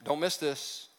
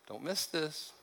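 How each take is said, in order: First: Said in the usual way. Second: Hushed repeat. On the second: Shown as a demonstration. Pastor repeats his warning to the congregation, softly. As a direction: lean in and repeat it under your breath.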